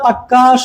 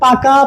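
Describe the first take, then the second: First: The middle consonant is doubled and held. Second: The middle consonant is short and single. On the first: It adds extra emphasis. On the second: It is the plain, neutral word.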